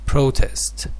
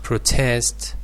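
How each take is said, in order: First: The stress is on the first syllable. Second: The stress is on the second syllable. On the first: It is used as a noun. "The stress shifts to the first syllable" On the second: It is used as a verb. "with the stress on the second syllable"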